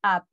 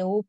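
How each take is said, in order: First: "up" said with an open vowel, like "ap"; correct English vowel. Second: "up" said Spanish-style as "oop"; mispronounced "up". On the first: Teacher showing how it is read, "up" pronounced "ap". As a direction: say "up" as "ap", not "oop". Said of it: "Esto se lee up". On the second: Teacher warning students off a misreading, "up" said as "oop". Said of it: "no, nada de up". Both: Shown as a demonstration.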